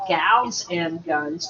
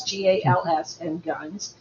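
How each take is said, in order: First: Said in the usual way. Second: G A L S spelled letter by letter. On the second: Shown as a demonstration. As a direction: spell out G A L S, then say and Guns.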